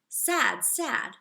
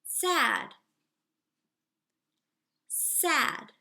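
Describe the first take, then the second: First: The two words run together without a pause. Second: There is a clear pause between the two words. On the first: It sounds like one target phrase said twice. The speaker calls it wrong. "I don't want to confuse my student by saying sad, sad" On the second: The listener gets time to repeat each word. The speaker calls it right. "I am pausing between each time that I say it"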